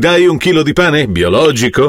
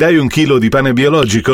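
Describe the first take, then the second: First: The word biologico is pushed with strong emphasis. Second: The word biologico is said without special emphasis.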